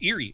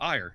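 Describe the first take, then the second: First: The name sounds like 'eerie', with two syllables. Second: The name sounds like 'ire', as in Irish. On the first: The speaker calls it wrong. "he thinks it's Erie. It's not Erie" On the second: The speaker calls it right. "like it's like Irish"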